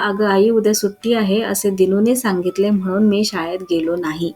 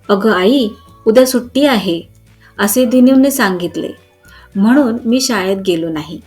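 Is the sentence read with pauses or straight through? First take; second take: straight through; pauses. First: The sentence runs on without any pauses. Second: The sentence has short pauses between its parts. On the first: The speaker calls it wrong. "खूपच plain वाक्य वाटते" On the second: The speaker calls it right. "विरामचिन्हे घातली तर वाचायला आणि ऐकायला छान वाटते"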